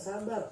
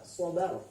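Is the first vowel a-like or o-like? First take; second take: a-like; o-like. First: The first vowel is a plain open a. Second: The first vowel is a dark, o-like sound. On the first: The speaker calls it wrong. "Bukan sabar" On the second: The speaker calls it right. "sobar. Yang benar"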